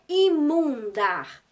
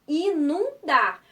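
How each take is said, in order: First: The first syllable ends with an m sound. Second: The first syllable ends with an n sound. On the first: The speaker calls it wrong. "não é imundar" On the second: The speaker calls it right. "é inundar"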